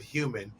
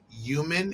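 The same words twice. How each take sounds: First: The word starts with an h sound. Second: The word starts without an h sound. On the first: "instead of human" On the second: "New Yorkers say human"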